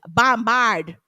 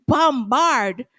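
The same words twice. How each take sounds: First: Guyanese accent. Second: Said in the usual way. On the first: Shown as a demonstration. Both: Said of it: "in my Guyanese voice".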